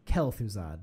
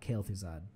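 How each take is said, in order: First: The first syllable has a short 'eh' vowel. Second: The first syllable has a long 'ay' vowel. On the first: The speaker calls it right. "I should actually say that correctly. It's Kel'Thuzad" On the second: The speaker calls it wrong. "not Kael'Thuzad, ... that's like combining two names together"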